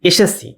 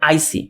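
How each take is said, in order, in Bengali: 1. শব্দটি প্রমিত রূপে বলা হয়েছে। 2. শব্দটি আঞ্চলিক রূপে বলা হয়েছে। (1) "আরেকটা শব্দ ধরেন এমন" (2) "এটার আঞ্চলিকভাবে অনেকে বলে"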